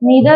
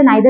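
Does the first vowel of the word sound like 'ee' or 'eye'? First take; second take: ee; eye. First: The first vowel sounds like 'ee'. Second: The first vowel sounds like 'eye'. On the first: "दोनों ही pronunciation सही है" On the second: "कई सारे लोग इसे नाइदर भी प्रोनाउंस करते हैं"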